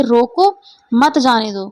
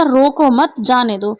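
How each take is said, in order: First: रोको alone, a break, then मत जाने दो as one phrase; pause after रोको. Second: रोको मत as one phrase, then जाने दो separately; pause after मत. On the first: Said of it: "अल्प विराम चिन्ह". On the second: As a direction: hold the break until after मत. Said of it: "हमने अल्प विराम यहाँ लगाया". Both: Shown as a demonstration.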